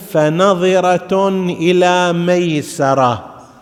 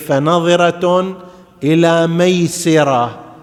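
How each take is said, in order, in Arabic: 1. السين في maysara تليها a. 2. السين في maysara تليها i. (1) "هنا بفتح السين" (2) "بكسر السين تصير"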